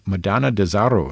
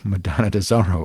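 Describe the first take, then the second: First: The r is rolled, Spanish style. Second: The r is not rolled.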